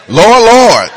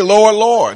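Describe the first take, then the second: First: Loud, laughing mock plea; pleading Lord Lord. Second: Said in the usual way. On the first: Sinners pleading at judgment, loud and laughing. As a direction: cry it out like a desperate sinner. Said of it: "they're gonna double up on the Lord". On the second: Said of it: "they will say".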